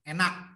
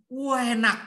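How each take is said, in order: First: The word starts directly on e, no u. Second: The word starts with a long, drawn-out u. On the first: The speaker is from western Central Java. "Kalau orang Jawa Tengah, bagian barat" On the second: The speaker is from East Java. "Udah Jawa Timur dipanjangin lagi"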